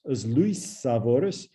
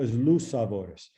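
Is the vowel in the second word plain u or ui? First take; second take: ui; plain u. First: The second word has the full 'ui' vowel. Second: The second word has a reduced plain 'u' vowel. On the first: "This is really as Luis savoris" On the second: "when you read that fast, it gets becomes reduced to"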